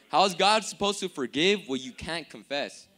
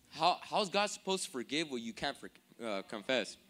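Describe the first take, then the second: First: Louder, fluent retake of the question; clean restatement. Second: Tripping over "forgive" and "confess"; stumbled line. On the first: Preacher repeats his question after a slip, clean and firm. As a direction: drive it through to "confess" without a stumble. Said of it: "Let me say that again". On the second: Preacher fumbles his question to the congregation, stumbling delivery. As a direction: falter and hesitate before landing on "confess". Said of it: "My bad. Let me say that again". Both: Real, not acted.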